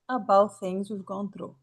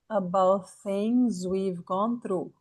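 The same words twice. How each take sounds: First: It is said faster, as connected speech. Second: It is said slowly, syllable by syllable. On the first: "depois você vai aumentando a velocidade" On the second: "fala devagar"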